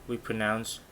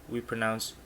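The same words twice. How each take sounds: No difference in how they are said.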